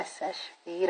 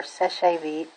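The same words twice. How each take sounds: First: Seche Vite as two syllables, "sesh veet"; pronounced "sesh-veet". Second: Seche Vite as three syllables, "seh-shay veet"; pronounced "seh-shay veet". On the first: Nail vlogger unsure of a brand name, Seche Vite said "sesh-veet". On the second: Nail vlogger offering another reading, Seche Vite said "seh-shay veet". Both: Shown as a demonstration. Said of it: "how to pronounce that".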